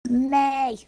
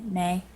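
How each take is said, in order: First: It is said more loudly. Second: It is said quietly.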